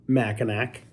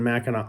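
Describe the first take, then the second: First: Mackinac with a hard K at the end; wrong pronunciation. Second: Mackinac with a silent final C, ending in "-naw"; local pronunciation. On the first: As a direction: say Mackinac as "MACK-in-ack". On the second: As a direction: say Mackinac as "MACK-in-aw". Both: Shown as a demonstration.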